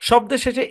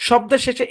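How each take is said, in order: Both takes have the same delivery.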